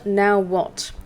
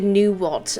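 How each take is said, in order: First: The first syllable sounds like 'now'. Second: The first syllable sounds like 'new'. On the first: The speaker calls it right. "That's how you pronounce it" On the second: The speaker calls it wrong. "I initially pronounced it new what"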